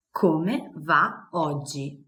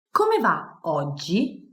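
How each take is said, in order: First: Slow, careful Come va oggi; slow model phrase. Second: Said in the usual way. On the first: Shown as a demonstration. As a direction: spell it out slowly for learners.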